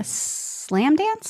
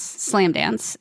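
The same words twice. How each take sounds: First: "Slam Dance" rising high at the end; questioning. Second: Said in the usual way. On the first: Real, not acted. Guest recalling the festival name, questioning rise on "Slam Dance".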